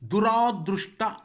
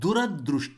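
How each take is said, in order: First: The second syllable has a long vowel. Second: The second syllable has a short vowel. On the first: The speaker calls it wrong. "ರಾದೀರ್ಘ ರಾ ಬಳಸಬಾರದು" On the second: The speaker calls it right. "ದುರದೃಷ್ಟ ಅಷ್ಟೆ"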